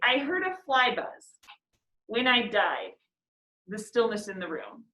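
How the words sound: Pauses fall at several points through the line. "You could read it with all the pauses there"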